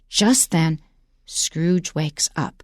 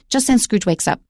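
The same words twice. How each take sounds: First: Slow, with a pause after each word. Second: Fast, with the words run together. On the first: Something big is about to happen. The speaker calls it right. "slow down" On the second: The effect is lost. The speaker calls it wrong. "So don't say, ... I can't even say it fast"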